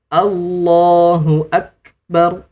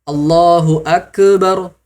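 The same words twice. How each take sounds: First: The k is held lightly without any bounce. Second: The k is released with a bouncing echo. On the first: The speaker calls it right. "Yang benar" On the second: The speaker calls it wrong. "Nah ini salah ya bunda"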